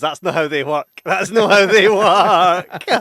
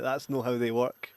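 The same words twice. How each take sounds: First: Building from loud to a drawn-out yell; mock-outraged shout, rising in pitch; exclaimed protest. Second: Said in the usual way. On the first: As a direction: protest louder and higher, stretching it out. Re-enacting own protest at film.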